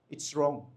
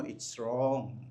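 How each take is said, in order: First: Said in the usual way. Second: Quietly murmured it's wrong to the person beside you; low quiet repeat. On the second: Shown as a demonstration. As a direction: say it low and soft to your neighbour. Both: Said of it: "Sabihin mo sa katabi mo".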